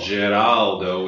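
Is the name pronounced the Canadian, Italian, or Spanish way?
Italian. The name is said with an Italian pronunciation. "Geraldo would be the Italian pronunciation"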